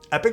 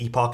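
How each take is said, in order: First: The word is said with an American pronunciation. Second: The word is said with a British pronunciation. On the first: "is the American pronunciation" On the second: "is the British one"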